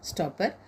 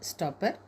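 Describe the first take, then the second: No difference in how they are said.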